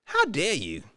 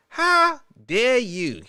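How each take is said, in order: First: Said in the usual way. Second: Drawn-out, theatrical how dare you; slow mock outrage. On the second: Host fakes offense at the Mexican comment, slow and theatrical. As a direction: play the offended diva slowly.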